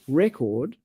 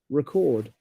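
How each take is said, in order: First: The stress is on the first syllable. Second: The stress is on the second syllable. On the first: It names a thing. "when the stress is on the first syllable, that's a noun" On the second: It names an action. "when you stress the second syllable, that's a verb"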